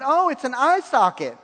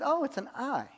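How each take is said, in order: First: Higher, louder "Oh, it's an eye socket" as the punchline lands; excited discovery. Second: Quiet, higher "Oh, it's an eye" as a soft discovery; mild realization. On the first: Young man praying solves the picture puzzle, excited. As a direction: announce the answer with delight. Realizing the vision's meaning. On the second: Young man praying sees a picture, quietly surprised. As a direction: murmur it as if just noticing. First puzzled guess in vision. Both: Retold or imitated.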